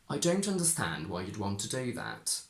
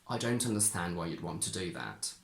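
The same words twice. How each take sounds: First: The pitch swings strongly up and down. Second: The pitch swings only mildly up and down. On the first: "In traditional R P, I really went up and down with that" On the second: "In normal modern R P, I did the same but with less intensity"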